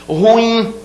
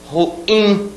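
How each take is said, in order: Both takes have the same delivery.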